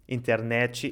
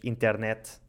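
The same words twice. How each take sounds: First: It is said in a Brazilian Portuguese accent. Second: It is said in a European Portuguese accent.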